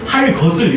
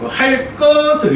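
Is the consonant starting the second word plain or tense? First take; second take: plain; tense. First: The second word starts with a plain k. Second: The second word starts with a tense k. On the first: The speaker calls it wrong. "이렇게 발음하지 않는다는 거예요" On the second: The speaker calls it right. "이렇게 들려. 꺼, 꺼 이렇게 된 소리로"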